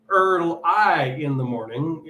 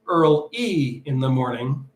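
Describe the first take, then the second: First: The word 'early' ends with an 'eye' sound. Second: The word 'early' ends with an 'ee' sound. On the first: This is the later, familiar version of the song. "the earliest recordings actually do not say Earl I in the morning" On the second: This is the original version of the song. "at the earliest known recordings, it was Earl E in the morning"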